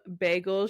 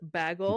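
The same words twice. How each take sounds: First: It is said the usual way, like 'bay-gel'. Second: It is said oddly, sounding like 'bag-hole'. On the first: The speaker calls it right. "instead of saying um bagel" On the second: The speaker calls it wrong. "she says bagel"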